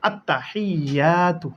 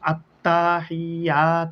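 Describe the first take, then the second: First: The vowels in the word are kept short. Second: A vowel in the word is drawn out long. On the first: The speaker calls it right. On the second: The speaker calls it wrong.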